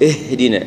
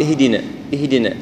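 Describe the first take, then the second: First: اهدنا with a distinct, clearly sounded هاء; اهدنا بهاء ظاهرة. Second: اهدنا with the همزة and هاء blurred together; خطأ: دمج الهمزة والهاء في اهدنا; merged hamza and ha. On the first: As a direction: bring out the ha of اهدنا on its own. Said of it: "لا هي". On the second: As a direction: run the alif and ha of اهدنا into one weak sound. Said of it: "بعض الأشخاص يقول". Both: Shown as a demonstration.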